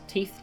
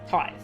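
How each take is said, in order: First: The vowel sounds like 'ee', rhyming with teeth. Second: The vowel sounds like 'eye', rhyming with scythe. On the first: The speaker calls it wrong. "How the hell do I pronounce this?" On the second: The speaker calls it right. "Thank you, Google"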